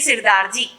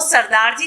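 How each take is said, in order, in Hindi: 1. पहले अक्षर में 'इ' की ध्वनि है। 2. पहले अक्षर में 'अ' की ध्वनि है। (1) "वो बोलेंगे सिरदार जी" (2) "वो सरदार जी नहीं बोलेंगे"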